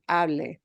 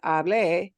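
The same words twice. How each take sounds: First: The stress falls on the first syllable. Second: The stress falls on the last syllable. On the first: It is the form the phrase needs. The speaker calls it right. "it should be hable" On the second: It means I spoke. The speaker calls it wrong. "you'll get a confused look, because hable means I spoke"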